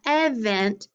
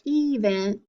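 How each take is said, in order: First: "event" said as EV-ent; short E. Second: "event" said as EE-vent; long E. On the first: Teacher recapping the second failed split, short-E "event". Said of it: "doesn't break up that way either". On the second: Teacher recapping the failed split, long-E "event". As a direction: give "event" a long ee at the start. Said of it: "tried breaking it up one way". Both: Shown as a demonstration.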